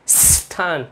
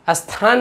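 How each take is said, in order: First: The word starts directly with the s cluster. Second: An extra vowel sound comes before the s. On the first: The speaker calls it right. "इसका सही उच्चारण है" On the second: The speaker calls it wrong. "स्थान ना पढ़ के"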